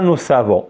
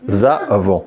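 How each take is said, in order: First: The words are linked with an S sound. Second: The words are linked with a Z sound. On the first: The speaker calls it wrong. "C'est pas ça. C'est pas nous savons" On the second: The speaker calls it right. "on prononce ZA"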